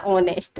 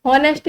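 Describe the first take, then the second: First: ऑनेस्ट said with a silent h, starting on the vowel; correct pronunciation. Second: हॉनेस्ट said with a clear h at the start; wrong pronunciation. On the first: Teacher giving students the right form: ऑनेस्ट with no h. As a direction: drop the h in ऑनेस्ट and open straight on the vowel. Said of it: "ये होता है ऑनेस्ट". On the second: Teacher showing students the wrong way: हॉनेस्ट with a voiced h. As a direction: sound the h in हॉनेस्ट, as the mistake to avoid. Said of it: "हॉनेस्ट नहीं होता". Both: Shown as a demonstration.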